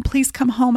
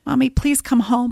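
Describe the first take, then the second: First: Put-on the plea repeated, higher little-girl voice; hurt child repeating her plea; child pleading. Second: Put-on higher little-girl voice, begging; daughter's text begging mom to come home; child pleading. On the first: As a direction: beg again like a scared child. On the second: Reading daughter's pleading text aloud.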